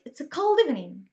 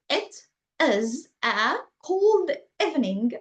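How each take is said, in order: First: The words run together like one word. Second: Each word is said separately and fully. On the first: "they just say words, say it" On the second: "Instead of saying"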